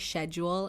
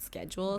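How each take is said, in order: First: It is said with a British pronunciation. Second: It is said with an American pronunciation. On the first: "they also say schedule" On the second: "and not schedule"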